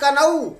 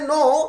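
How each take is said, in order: First: The k is sounded before the n. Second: The k is silent; it sounds like no. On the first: "उसने लिखा कनऊ" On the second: "सही उच्चारण है नो"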